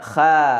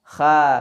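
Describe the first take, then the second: No difference in how they are said.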